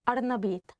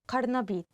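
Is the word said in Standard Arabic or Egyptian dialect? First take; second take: Egyptian dialect; Standard Arabic. First: It is said with an Egyptian glottal stop. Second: It is said with a standard q sound.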